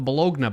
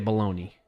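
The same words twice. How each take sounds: First: The word is pronounced letter by letter as spelled. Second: The word is pronounced the usual way, not as spelled. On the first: "I'm pronouncing it how it's spelled" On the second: "we say bologna"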